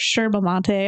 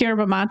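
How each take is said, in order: First: It is said with an Argentine Spanish pronunciation. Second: It is said with an English-speaking pronunciation.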